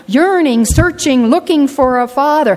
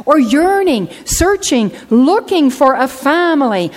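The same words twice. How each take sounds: First: "yearning, searching" hit loud and high, landing on "father"; the plea again, fervent; building emphasis. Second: Each word pushed louder and higher; a rising preacher's cry; building emphasis. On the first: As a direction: repeat the plea with force. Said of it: "repeated litany". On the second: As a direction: climb through the list with force. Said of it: "preacher's rising litany". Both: Acted.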